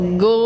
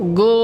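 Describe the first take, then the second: No difference in how they are said.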